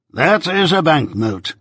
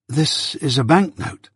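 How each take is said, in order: First: "is" stressed, said slowly and a bit higher; pointed repeat. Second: Said in the usual way. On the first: A narrator's reading. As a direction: lawyer pressing the point, lean on "is". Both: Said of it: "repeated Mister Jaggers".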